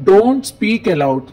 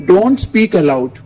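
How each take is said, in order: Both takes have the same delivery.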